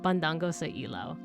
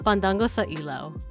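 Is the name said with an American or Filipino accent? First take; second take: Filipino; American. First: It is said with a Filipino accent. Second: It is said with a thick American accent.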